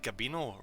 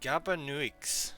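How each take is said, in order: First: The name ends in an 'o' sound. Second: The name does not end in an 'o' sound. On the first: The speaker calls it right. "It's an O sound" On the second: The speaker calls it wrong. "It's definitely not that"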